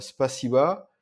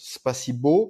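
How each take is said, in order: First: The word ends with an 'a' sound. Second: The word ends with an 'o' sound. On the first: The speaker calls it right. "le O peut se prononcer A. Donc par exemple" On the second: The speaker calls it wrong. "souvent on- on- les débutants le prononcent spasibo parce qu'à la fin c'est un O"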